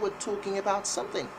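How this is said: It is said with a British accent. "But British would say"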